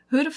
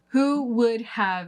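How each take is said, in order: First: The first two words merge into one syllable. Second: Each word is said fully and separately. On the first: "but who'd have thought?" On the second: "Who would have is what this contraction is made of"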